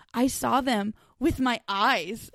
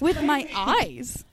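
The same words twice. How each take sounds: First: Slow, plain "I saw them with my eyes"; slow deadpan quote. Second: Slow quote repeated. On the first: Friend imitating Cha Nu's slow answer about the pyramids. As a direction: say it slowly and simply, like it's obvious. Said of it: "and he's just like". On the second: Friend repeating Cha Nu's line slowly for laughs. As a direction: stretch out "With my eyes" very slowly. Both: Retold or imitated.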